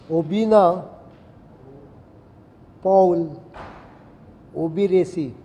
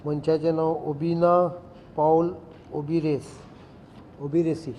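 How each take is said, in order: First: "ओबिना पाउल ओबिरेसी" word by word, with long pauses between; louder, separated delivery of "ओबिना", "पाउल", "ओबिरेसी"; careful pronunciation. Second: Said in the usual way. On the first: Shown as a demonstration. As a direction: spell out the name "ओबिना पाउल ओबिरेसी" by ear, one word at a time. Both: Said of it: "This is how they pronounce it".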